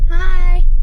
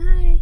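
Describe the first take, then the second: First: It is said loudly. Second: It is said quietly.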